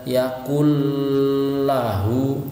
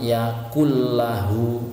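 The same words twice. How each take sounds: First: The merged sound is drawn out slowly. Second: The merged sound is said quickly. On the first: The speaker calls it wrong. "tidak bisa" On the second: The speaker calls it right. "tapi harus cepat"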